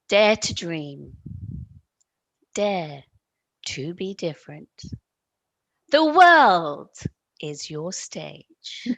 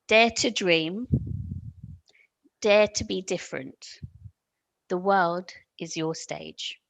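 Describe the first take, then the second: First: It is said in a strong, forceful voice. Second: It is said in an ordinary, conversational voice.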